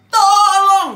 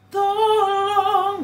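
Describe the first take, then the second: First: It is said loudly and forcefully. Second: It is said softly and sweetly.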